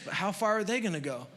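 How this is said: It sounds doubtful and discouraged. There is not nearly enough to go around. "I used to read that like it was a negative"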